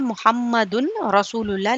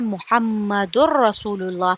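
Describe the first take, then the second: First: The n sound is pronounced before the r. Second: The n sound merges into a doubled r. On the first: The speaker calls it wrong. "यहाँ लिखा यूँ है ... लेकिन ये है नहीं" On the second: The speaker calls it right. "बल्कि ये है"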